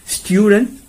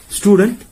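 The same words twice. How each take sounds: First: Student with a yoo glide, STYOO-dent; British pronunciation. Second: Student with a plain oo, STOO-dent; American pronunciation. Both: Shown as a demonstration.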